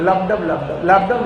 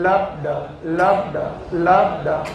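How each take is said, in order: First: It is said quickly, with the beats hurried. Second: It is said at a normal, steady pace. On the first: The heart rate has increased. "जल्दी जल्दी बोल रहे" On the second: The heart rate is normal. "ये normal है"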